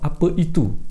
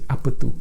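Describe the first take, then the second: First: The word itu is said in full. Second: The word itu is shortened to tu. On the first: "Instead of apa itu" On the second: "we say apa tu"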